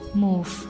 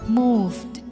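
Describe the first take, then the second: First: The final d sound is dropped. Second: The final d sound is pronounced. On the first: "But in Chicano English, they say move" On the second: "the sound following voice consonants"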